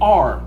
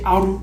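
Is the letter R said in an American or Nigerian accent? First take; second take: American; Nigerian. First: The letter R is said with an American accent. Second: The letter R is said with a Nigerian accent. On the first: "We don't say R like this" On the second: "We say aru"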